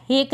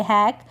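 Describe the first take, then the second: First: हेक with a long "ay" vowel; mispronunciation demo. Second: हैक with an open "ae" vowel; correct vowel demo. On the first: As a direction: say हेक to rhyme with "lake". (हेक में ए की मात्रा) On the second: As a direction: say हैक to rhyme with "back". (हैक में ऐ की मात्रा) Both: Shown as a demonstration. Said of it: "हेक नहीं पढ़ेंगे".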